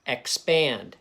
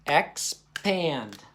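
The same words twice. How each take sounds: First: Said in the usual way. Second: EX, pause, PAND; split into syllables. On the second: Shown as a demonstration. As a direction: say expand as two separate beats, "ex" and "pand". Teacher splits word into syllables.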